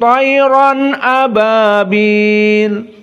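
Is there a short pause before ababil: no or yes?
no. There is no pause before ababil.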